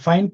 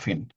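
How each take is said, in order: First: The name is said with an English-style vowel. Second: The name is said with non-English, Spanish-style vowels. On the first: The speaker calls it wrong. "Algunos dicen que se pronuncia Fine" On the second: The speaker calls it right. "no venía el apellido de, de cuestiones este, anglosajonas, entonces dicen que se pronunciaba Fine"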